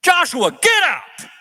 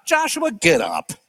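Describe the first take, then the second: First: High, loud, slow call of Joshua, get up; God's command. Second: Slow, level, unbothered Joshua, get up; calm firm reply. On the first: God answering Joshua's grieving, commanding. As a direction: call him to his feet with authority. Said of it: "you know what God says?". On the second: God answering Joshua's frantic complaint, calmly firm. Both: Acted.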